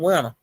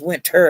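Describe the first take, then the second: First: It is said with the speaker's local pronunciation. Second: It is said with the standard pronunciation. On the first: "I say I be saying Winter" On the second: "but I I know it's Winter"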